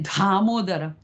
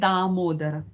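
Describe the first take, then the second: First: The first consonant is a breathy, aspirated d. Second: The first consonant is a plain, unaspirated d. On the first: The speaker calls it wrong. "We don't say dhamodara" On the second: The speaker calls it right. "We say damodara"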